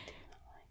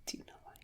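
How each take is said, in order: First: Faint unvoiced eerie whisper. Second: Whispering. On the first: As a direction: breathe it eerily. Spooky echo whispered. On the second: Acted. Spooky echo.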